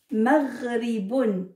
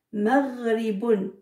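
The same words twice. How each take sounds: First: Maghribun read slowly, each syllable clear; slow model reading. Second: Maghribun repeated slowly with a throaty gh; slow model reading. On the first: Teacher reading the second word to children, slow. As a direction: sound out Maghribun for the class. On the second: Teacher repeats the word for the children, slow. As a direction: say Maghribun again, slow and clear. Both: Shown as a demonstration. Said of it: "qui peut lire".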